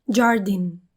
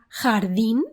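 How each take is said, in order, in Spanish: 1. El primer sonido es un sonido j que suena extranjero. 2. El primer sonido es el sonido j español. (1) "frecuentemente dicen jardín" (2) "aprenden la palabra jardín"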